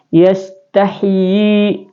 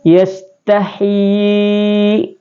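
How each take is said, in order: First: The long vowel is held for two beats. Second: The long vowel is held for four beats. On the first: "Kalau dua harakat begini" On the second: "Kemudian empat harakat"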